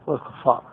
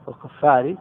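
First: Said in the usual way. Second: "والكفار" ending in a short i; genitive ending. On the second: Shown as a demonstration. Teacher showing students the genitive case, "والكفار" ending in -ri. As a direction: voice the final kasra on "والكفار", wal-kuffari. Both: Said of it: "الجر عطف على قوله".

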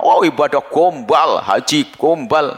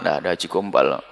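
First: Slow, drawn-out sneer; mock the pilgrim slowly and scornfully; scornful mockery. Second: Said in the usual way. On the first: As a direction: stretch each gombal with contempt. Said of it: "kadang-kadang kita itu marah".

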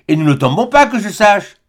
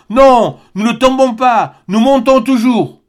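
First: Said in the usual way. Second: High, slow, emphatic triumph; excited exclamation. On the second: A narrator's reading. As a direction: proclaim it with rising excitement. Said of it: "s'écria Barbicane".

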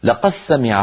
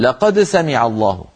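First: "لقد سمع" as laqas-samiʿa; no d, a doubled s in "لقد سمع"; merged dāl. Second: "لقد سمع الله" with the d released; original unmerged reading. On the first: Teacher repeating the merged reading, "لقد سمع" with d absorbed. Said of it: "فيدغمون الدال في السين". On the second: Teacher giving another tribe's original form, "لقد سمع" unmerged. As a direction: keep d and s separate in "لقد سمع". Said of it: "تقرأ على الأصل". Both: Shown as a demonstration.

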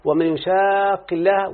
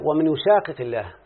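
First: يشاق with merged doubled qaf, recited slowly and higher; Quranic recitation. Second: يشاقق with both qafs split apart; Quranic recitation. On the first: Teacher reciting the verse to illustrate merging. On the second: Teacher reciting the verse's unmerged form. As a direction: recite يشاقق with the double qaf separated. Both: Shown as a demonstration. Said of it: "وده السبب ما تقرأ".

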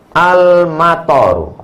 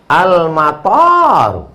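First: AL-MATAR with its last A kept short; short vowels. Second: AL-MATAR with the last A drawn out long; long vowel. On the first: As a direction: say "Al-matar" with a short final "tar". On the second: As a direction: stretch the "tar" in "Al-matar" to "taaar". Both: Shown as a demonstration. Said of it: "Intonasi panjang pendek".

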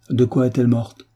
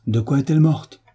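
First: Said in the usual way. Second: Higher-pitched, tense repeated question; brewing anger. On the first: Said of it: "répéta Bagrianov". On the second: A narrator's reading. Master repeats his unanswered question, a storm of anger brewing. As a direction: press the question, temper held in. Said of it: "avec un pli des lèvres précurseur de l'orage".

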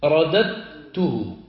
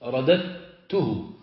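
First: رددته drawn out slowly; slow teaching demo; slow spelled-out. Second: رددته drawn out slowly and a little quieter; slow softer demo. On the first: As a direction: stretch out رددته for the class. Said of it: "تقول". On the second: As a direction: model رددته slowly again. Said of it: "تدغمها في التاء". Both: Shown as a demonstration.

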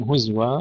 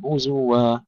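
First: هزوا said huzwa, no vowel on ز; silent-vowel zay. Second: هزوا said huzuwa, with short u on ز; u on zay. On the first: Retold or imitated. Teacher quoting a common easier mistake, huzwa. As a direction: drop the u after the zay. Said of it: "كثير من الإخوة يقولون". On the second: Shown as a demonstration. Teacher modelling the correct word, huzuwa. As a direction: give the zay a clear u. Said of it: "ننتبه إلى ضم الزاي".

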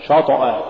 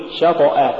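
First: شطأ with a dark, thick ش; wrongly heavy shin. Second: Said in the usual way. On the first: Shown as a demonstration. Teacher warning against an error, heavy ش in شطأ. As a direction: thicken the vowel after ش in شطأ. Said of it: "ولا تقل". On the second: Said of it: "قل".

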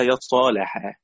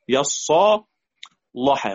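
First: "يصالحا" slow, with a thin, light l; light lam. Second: "يصالحا" slow, with a thick, dark l; tongue back for a heavy l in "يصالحا"; heavy lam. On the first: Teacher illustrates Warsh's tarqiq, light lam. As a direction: keep the l of "يصالحا" light and fronted. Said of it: "اللام وبترقيقها". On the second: Teacher illustrates Warsh's tafkhim, heavy lam. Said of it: "قرأ بتفخيم". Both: Shown as a demonstration.

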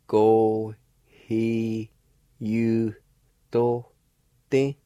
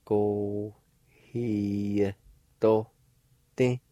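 First: You said fully, with a clear Y glide; with the Y sound. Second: To said without any Y glide; without the Y sound. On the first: Teacher shows learners the word with the faint Y sounded. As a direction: pronounce the you with its Y, syllable by syllable. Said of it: "I want to pronounce it out like this". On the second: Teacher shows learners the word without the Y. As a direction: drop the Y, say to plainly. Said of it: "it'll sound like this". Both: Shown as a demonstration.

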